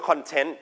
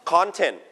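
First: ConTENT, weight on the last syllable; stress on second syllable. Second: CONtent, strong first syllable; stress on first syllable. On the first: Teacher showing the other stress pattern, stress on second syllable. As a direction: lean on TENT in content. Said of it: "stress ที่พยางค์ที่สองจะมีอีก". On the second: Teacher explaining the noun meaning, stress on first syllable. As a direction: punch the CON in content. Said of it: "stress ที่พยางค์ที่หนึ่งเ". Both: Shown as a demonstration.

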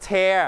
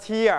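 First: "tear" said like "tare"; tear as in rip. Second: "tear" said like "teer"; tear as in crying. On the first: Teacher shows the word meaning rip, "tear" rhyming with bear. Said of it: "ถ้าเราออกเสียงน้อง ... ออกเสียงคำนี้". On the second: Teacher shows the word for crying, "tear" rhyming with ear. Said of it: "แต่ถ้าเราออกเสียงว่า". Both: Shown as a demonstration.

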